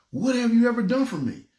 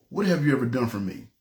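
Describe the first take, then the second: First: High, pressing voice of God asking; God pressing him, pitched high; emphatic question. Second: A low, hushed voice of God asking. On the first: God's question, retold emphatically. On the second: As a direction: ask it low and heavy, holding back. God's question, first telling. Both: Retold or imitated.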